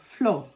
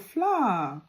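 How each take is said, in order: First: The word sounds like 'floor'. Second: The word sounds like 'flower'. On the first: The listener took it to mean the ground. The speaker calls it wrong. "he looked at the floor and looked at me" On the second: The listener understood it as baking flour. The speaker calls it right. "oh, flour. Oops. And I learned that day"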